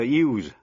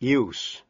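First: The word ends with a Z sound. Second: The word ends with an S sound. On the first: It is the verb. "nếu là động từ, phát âm là Z" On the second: It is the noun. "nếu là danh từ, chữ S phát âm là S"

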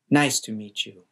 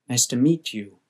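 First: The stress falls on the word nice. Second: The stress falls on the word meet. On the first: "might put stress on words at the beginning of a sentence" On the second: "Americans generally put stress later in the sentence"

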